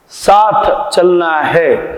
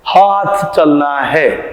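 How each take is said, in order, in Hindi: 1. पहला शब्द स की आवाज़ से शुरू होता है। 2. पहला शब्द ह की आवाज़ से शुरू होता है। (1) "वो बोलना चाहते हैं स" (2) "बोल देते हैं दादाजी लोग"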